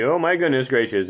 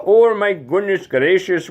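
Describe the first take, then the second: First: Said in the usual way. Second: Put-on Oh, my goodness gracious in a high Indian accent; Indian accent exclamation. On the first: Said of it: "own plain take of catchphrase". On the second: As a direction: throw up your hands, Indian accent. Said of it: "So I can kinda do that guy".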